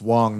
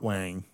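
First: The vowel is an open 'ah' sound. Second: The vowel is the 'a' in 'cat'. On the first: This is how the name is really said. The speaker calls it right. "it's Wong" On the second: This is how someone else mispronounced the name. The speaker calls it wrong. "not Wang"

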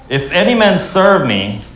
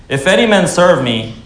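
The two takes are said the same way.

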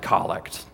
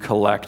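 First: The stress is on the first syllable. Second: The stress is on the second syllable. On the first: It is the noun, a short prayer. "a collect is the noun form" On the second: It is the verb, to gather. "you collect"

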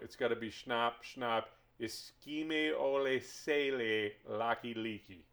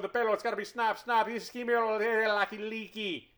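First: The phrase is said at an ordinary speed. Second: The phrase is said very quickly. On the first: "I'll recite it at normal speed" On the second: "but in high speed"

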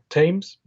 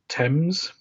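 First: Thames is pronounced in a non-London way. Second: Thames is pronounced the London way. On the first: It is the name of the baseball player. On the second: It is the name of the river in London.

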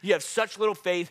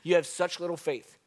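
First: It sounds angry and frustrated. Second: It sounds gentle and loving.

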